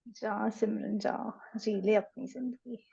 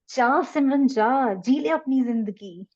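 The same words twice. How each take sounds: First: It is said in a sad tone. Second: It is said in a happy tone.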